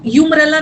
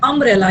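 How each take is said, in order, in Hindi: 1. शब्द 'yoo' ध्वनि से शुरू होता है। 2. शब्द 'uh' ध्वनि से शुरू होता है। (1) "यहाँ यू यूमरेला नहीं है" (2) "यहाँ यू का प्रोनाउंसिएशन आ रहा है अ"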